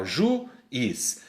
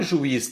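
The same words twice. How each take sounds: First: "juiz" broken into ju, then iz; syllabes séparées. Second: Said in the usual way. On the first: Shown as a demonstration. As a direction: pause between u and i in "juiz". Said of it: "O A ficou separado do U". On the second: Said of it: "ó, juiz".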